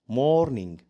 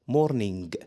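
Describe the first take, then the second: First: The word ends without any g sound. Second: The word ends with a hard g sound. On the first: The speaker calls it right. "لو جه في اخر الكلمه حرف الجي مش بيتنطق" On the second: The speaker calls it wrong. "ما اسمهاش مورنينج"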